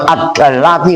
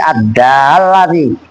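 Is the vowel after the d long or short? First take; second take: short; long. First: The vowel after the d is cut short. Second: The vowel after the d is held long. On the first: The speaker calls it wrong. "Jangan ad-dallati, kalau lu ad-dallati seolah-olah alifnya nggak ada" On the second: The speaker calls it right. "Panjang, karena ada alifnya"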